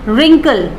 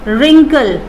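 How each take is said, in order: Both takes have the same delivery.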